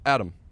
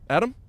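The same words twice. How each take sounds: First: The voice falls at the end. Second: The voice rises at the end.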